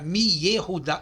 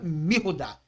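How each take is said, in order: First: The y sound after mi is kept. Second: The y sound after mi is dropped. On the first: The speaker calls it wrong. "mi mi mi fica estranho" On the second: The speaker calls it right. "Mirudá soa bem melhor"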